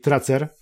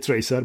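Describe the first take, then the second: First: It is pronounced as Polish spelling reads. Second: It is pronounced the English way. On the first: The speaker calls it wrong. "będzie mówić Tracer" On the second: The speaker calls it right. "nie wymówi poprawnie Tracer"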